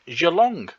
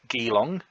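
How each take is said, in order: First: It begins with a soft J sound. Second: It begins with a hard G sound. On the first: The speaker calls it right. "This one isn't" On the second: The speaker calls it wrong. "which is not pronounced Geelong, as I thought it might be"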